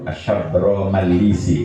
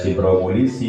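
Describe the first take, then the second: First: It begins with 'shab' and has 'ma'. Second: It begins with 'sib' and has 'mu'. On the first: The speaker calls it right. "yang betul itu Syabro Malisi" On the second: The speaker calls it wrong. "kadang-kadang ada yang membaca Sibro Mulisi"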